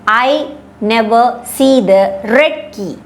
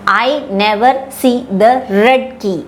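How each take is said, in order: Both takes have the same delivery.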